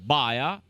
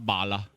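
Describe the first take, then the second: First: The L is weakened to a glide sound. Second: The L is pronounced as a full consonant. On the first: This is the speaker's own way of saying it. "mi dico baia" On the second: This is how an older relative said it. "me nonna diceva balla"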